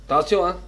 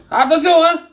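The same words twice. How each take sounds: First: Said in the usual way. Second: Higher, louder call of caution; a raised, higher warning shout. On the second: Shown as a demonstration. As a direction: raise the voice to warn them. Cook repeats warning, louder.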